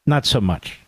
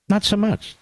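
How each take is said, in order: First: Said in the usual way. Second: Mocking echo. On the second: Host echoing his own line to mock Sununu, lilting. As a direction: tease it back in a lilting mock voice.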